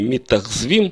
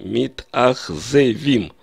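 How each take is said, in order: First: No vowel is heard between z and v. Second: An e vowel is heard between z and v. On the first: The speaker calls it wrong. "Не митахзвим, то есть я не пытаюсь здесь сократить гласный звук" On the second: The speaker calls it right. "я произношу митахзевим"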